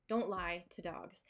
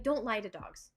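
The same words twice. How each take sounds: First: "Don't lie to dogs." said slower and quieter for emphasis; slower softer repeat. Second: Said in the usual way. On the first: Shown as a demonstration.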